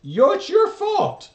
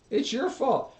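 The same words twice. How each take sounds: First: Mock blame. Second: Said in the usual way. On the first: Blaming mock outburst.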